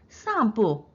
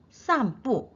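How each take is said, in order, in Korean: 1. 두 음절이 한 번에 쭉 이어져 내려갑니다. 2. 두 음절을 따로 딱딱 끊어서 말합니다. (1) "사성이 연속으로 올 때는 한 번에 내려갑니다" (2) "쌈뿌 아니고요"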